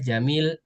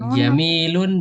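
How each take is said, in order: First: The word ends without the final -un sound. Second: The word ends with a final -un sound. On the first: "Kalau diwakafkan kita jamil" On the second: "Jamilun boleh"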